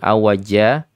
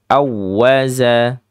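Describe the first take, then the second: First: The middle consonant is a j sound. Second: The middle consonant is a z sound. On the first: The speaker calls it wrong. "bukan awaja" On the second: The speaker calls it right. "tapi za di situ huruf zai"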